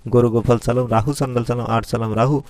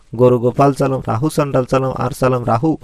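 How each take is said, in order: The two takes are said the same way.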